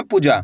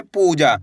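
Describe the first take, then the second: First: पूजा with a short, quick पु; short vowel. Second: पूजा with a long held ऊ; stretched vowels. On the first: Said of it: "ऐसे नहीं पढ़ना". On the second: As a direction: draw out पू, then जा. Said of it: "इसी तरीके से खींच के पढ़ना है". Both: Shown as a demonstration.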